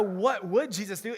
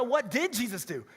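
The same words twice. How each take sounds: First: "what WOULD Jesus do?" with would lifted on a rise; stress on would. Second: "what DID Jesus do?" with did punched and the tune falling; stress on did. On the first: Preacher contrasting the bracelet slogan, stress on would. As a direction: lean on WOULD, rising like a question. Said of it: "it's not a". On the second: Preacher correcting the slogan for the congregation, stress on did. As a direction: hit DID hard and drop at the end. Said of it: "It's a". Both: Shown as a demonstration.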